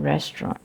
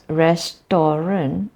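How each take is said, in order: First: Restaurant as REST-ront, soft; restaurant, English two-syllable form. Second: Restaurant said as res-to-ran; Malay restoran. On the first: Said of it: "rather than". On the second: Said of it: "it is pronounced restaurant rather than". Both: Shown as a demonstration.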